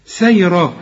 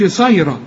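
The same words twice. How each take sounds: First: سيرا said with a thin light س; نطق صحيح لسيرا بسين مرققة; light seen. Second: صيرا said with a heavy emphatic ص; نطق خاطئ لصيرا بصاد مفخمة; wrong emphatic sad. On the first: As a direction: keep سيرا light and unemphatic. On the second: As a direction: demo the mistake صيرا, ص thick and dark. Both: Shown as a demonstration. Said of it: "ما تقولش صيرا".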